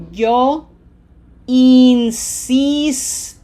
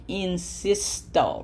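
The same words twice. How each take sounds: First: "yo insisto" loud and very slow, both I's a long ee; exact slow model. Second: "insisto" with lax English short I's, softer; relaxed wrong pronunciation. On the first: Teacher telling learners to listen, "yo insisto" slow and emphatic. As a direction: stretch "insisto" syllable by syllable with smiled, tense ee sounds. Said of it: "Say it exactly like that at that speed".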